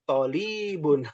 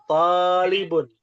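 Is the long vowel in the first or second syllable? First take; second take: second; first. First: The first vowel is short, the second long. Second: The first vowel is long, the second short. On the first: The speaker calls it wrong. "To-nya pendek, li-nya yang panjang. Salah ya" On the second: The speaker calls it right. "Yang betul talibun"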